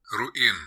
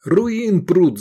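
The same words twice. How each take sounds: First: Said in the usual way. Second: High, loud angry shout. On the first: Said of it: "Героин". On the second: A narrator's reading. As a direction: yell about the drug runners. Voronov keeps shouting.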